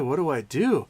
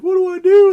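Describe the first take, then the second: First: Said in the usual way. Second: Put-on very high, loud child's wail; mock crying. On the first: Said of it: "And the priest is like". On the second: Crying boy begs priest for help, mock wailing. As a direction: wail helplessly as a hammed-up crying kid. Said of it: "And the kid's crying".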